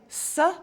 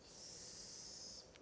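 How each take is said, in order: First: The consonant ends with a short added vowel. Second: The consonant is held alone with no vowel. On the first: The speaker calls it wrong. "You don't say s" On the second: The speaker calls it right. "you say s"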